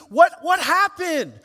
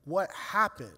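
First: High, loud, re-enacted outburst; angry demand. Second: Stunned question. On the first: Father demands answers in the ICU, acted-out anger. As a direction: burst out demanding an answer, stammering on the first word. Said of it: "Anger starts welling up". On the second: Retold or imitated. Father reeling from wife's call, quietly stunned. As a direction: ask it numbly, barely taking it in. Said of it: "now I gotta go".

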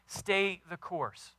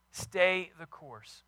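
First: Slow, weighty \"stay the course\"; slow emphatic. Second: Slow, softer \"Stay the course\"; slow emphatic repeat. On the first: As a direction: lean on every word. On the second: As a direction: repeat it gently and slowly. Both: Real, not acted.

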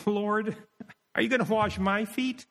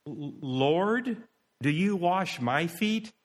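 First: High-pitched astonished question, rising at the end; incredulous question. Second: Mildly wondering, a little raised in pitch; puzzled question. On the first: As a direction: ask in high, acted disbelief. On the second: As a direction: ask with restrained wonder. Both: Shown as a demonstration. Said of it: "Or he could have said it".

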